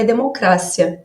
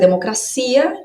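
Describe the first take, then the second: First: The stress falls on the syllable 'cra'. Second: The stress falls on the syllable 'ci'. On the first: This is the Spanish pronunciation. "em espanhol é democrácia" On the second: This is the Portuguese pronunciation. "Em português é democracia"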